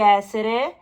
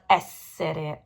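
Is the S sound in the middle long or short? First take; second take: short; long. First: The middle S sound is short and single. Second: The middle S sound is long and doubled. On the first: The speaker calls it wrong. "Don't say essere" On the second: The speaker calls it right. "double S"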